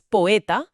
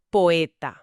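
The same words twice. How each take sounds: First: "poeta" squeezed into two syllables, "poe-ta", with a rising tune; "poeta" with the vowels fused, ending up. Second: "poeta" spoken in three clear syllables, "po-e-ta", with a falling tune; "poeta" in three full syllables, ending down. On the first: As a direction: run the first two vowels of "poeta" together. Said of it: "como si fueran dos sílabas". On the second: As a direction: keep each vowel of "poeta" separate. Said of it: "en lugar de tres". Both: Shown as a demonstration.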